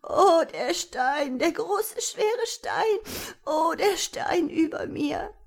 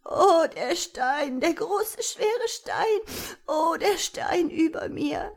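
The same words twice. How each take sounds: First: High, slow, wailing little voice; a tiny creature crying under a stone; sobbing wail. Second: High, slow, weary crying voice; tired sobbing wail. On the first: A tiny trapped creature wailing to be freed, high and weeping. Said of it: "Klagen ... mischten sich mit Schluchzern". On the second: The trapped creature calling out again, tired from crying. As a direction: wail it again, worn out from weeping. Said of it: "schluchzende Stimme, aber sie war müde und erschöpft vom Weinen". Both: A narrator's reading.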